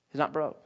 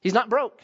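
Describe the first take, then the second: First: Softer, lower He's not broke; preacher repeating a point, quieter. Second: Said in the usual way. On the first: Shown as a demonstration. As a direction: drop the voice and let it sink in.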